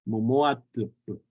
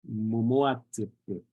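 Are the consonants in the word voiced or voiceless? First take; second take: voiceless; voiceless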